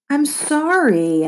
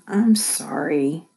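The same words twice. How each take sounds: First: It is yelled loudly. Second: It is muttered quietly.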